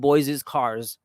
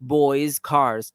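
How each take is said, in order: First: An extra 'iz' syllable follows 'boys'. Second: No extra syllable follows 'boys'. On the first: The speaker calls it wrong. "We're not going to say boys is cars" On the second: The speaker calls it right. "That's how you pronounce it"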